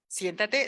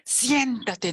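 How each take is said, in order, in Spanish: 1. Suena amable y cortés, como una invitación. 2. Suena firme e impaciente, como una orden. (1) "Y sería otra entonación" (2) "La mamá así como que ya"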